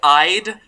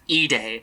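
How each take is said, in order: First: The word begins with an 'eye' sound. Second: The word begins with an 'ee' sound. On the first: The speaker calls it wrong. "reads like Ide, so that's how I've been pronouncing it" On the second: The speaker calls it right. "it is technically pronounced E-Day"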